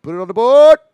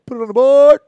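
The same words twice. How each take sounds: First: Loud booming radio call; announcer home run call. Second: Big booming announcer call; announcer home run call. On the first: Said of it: "He says like this". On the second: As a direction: belt it out like a radio play-by-play man. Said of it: "one of my favorite guys doing baseball is". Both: Retold or imitated.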